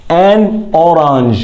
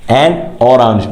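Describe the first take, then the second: First: "An orange" drawn out very slowly, "an" stressed and falling; teacher's exaggerated slow model of "An orange"; slow model word. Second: Said in the usual way. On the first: Shown as a demonstration. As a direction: stretch "An orange" out slowly for the class. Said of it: "slow modelled pronunciation". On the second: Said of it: "repeated at normal speed".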